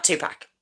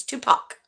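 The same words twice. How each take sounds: First: Tupac with a short 'a' as in pack; mispronounced Tupac. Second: Tupac ending like 'pock', said softly; proper Tupac pronunciation. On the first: Showing the bad way to say his name, mispronounced Tupac, ending in 'pack'. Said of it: "that's quite a bad way to say his name". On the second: Trying to say his name properly, Tupac ending like 'pock'. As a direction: say Tupac with an open 'ah' in the last syllable. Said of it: "I'm gonna try and say it properly". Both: Shown as a demonstration.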